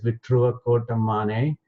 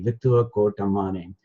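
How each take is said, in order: First: The double consonant is said as t plus r. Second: The double consonant is said as a double t. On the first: "Pronounce R R as either T R" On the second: "or just T T"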